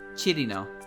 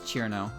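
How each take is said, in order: First: The name is said with three syllables. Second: The name is said with two syllables. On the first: This is closer to the original way of saying it. "it's like Chirino" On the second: This is the usual English way of saying it. "English tends to use two syllables for her"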